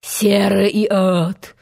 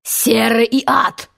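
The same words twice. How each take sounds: First: Slow, restrained echo of the captain's oath; Hook imitation. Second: Slow, drawn-out exclamation of fury; captain's howl. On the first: Peter retorts in Hook's voice, measured mimicry. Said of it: "возразил ему голос". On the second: Captain curses at his pirates, howling oath. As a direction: stretch the oath out angrily. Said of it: "завопил капитан". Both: A narrator's reading.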